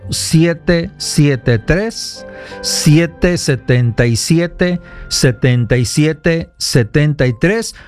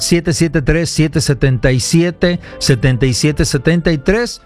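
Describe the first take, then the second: First: The number is said at a slower pace. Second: The number is said at a quicker pace.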